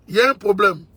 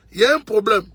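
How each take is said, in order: Both takes have the same delivery.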